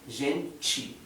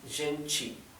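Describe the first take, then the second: First: The t is pronounced like a 'ch' sound. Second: The same.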